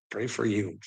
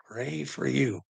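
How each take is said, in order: First: "for" stressed, falling at the end. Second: "you" stressed with a falling end. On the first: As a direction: lean on "for" in Pray for you. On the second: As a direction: land the weight on "you" in Pray for you. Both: Shown as a demonstration.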